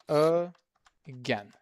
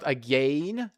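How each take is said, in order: First: The second syllable has a short e vowel. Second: The second syllable sounds like the word gain. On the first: The speaker calls it right. "Short e" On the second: The speaker calls it wrong. "So not again. There is no gain like the word"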